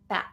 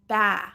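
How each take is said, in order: First: The final T is stopped without releasing air. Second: The final T is dropped, the vowel trails off. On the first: The speaker calls it right. "We just want this stop T" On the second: The speaker calls it wrong. "underpronouncing, that would be like this"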